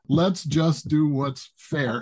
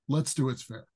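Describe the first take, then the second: First: It is said loudly, with strong emphasis. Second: It is said plainly, without extra force.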